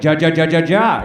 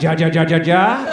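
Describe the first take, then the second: First: Spelled-out "ja, ja, ja" laugh, a bit louder; mock Spanish laugh. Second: Spelled-out "ja, ja, ja" laugh, a bit louder; hammed-up meme laugh; mock Spanish laugh. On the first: Comic mocking the crowd's expected laugh, a hammed-up "ja ja". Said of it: "I'm surprised you're not all like". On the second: Latinos laughing at their memes online, a hammed-up "ja ja". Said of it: "They're all like".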